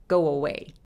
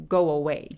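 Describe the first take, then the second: No difference in how they are said.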